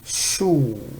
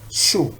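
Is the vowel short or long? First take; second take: long; short. First: The vowel is long. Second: The vowel is short. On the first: "Now with long vowel" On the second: "dhamma, shu"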